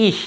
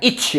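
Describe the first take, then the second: First: "ih" with soft friction, no t; correct ich. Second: "ich" with hard tch; wrong itch. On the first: Teacher contrasting right reading, soft ending. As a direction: keep "ih" hushed and open. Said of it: "Jadi ih". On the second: Teacher showing the mistake, tch ending. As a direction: close "ich" on a t before sh. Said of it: "bukan ich ya". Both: Shown as a demonstration.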